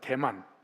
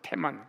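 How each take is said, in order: First: The name begins with a soft, unaspirated d sound. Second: The name begins with a strong, aspirated t sound. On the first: The speaker calls it wrong. "대만이 아니고" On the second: The speaker calls it right. "악센트를 딱 넣으면 테, 테만이라고 읽어야 돼요"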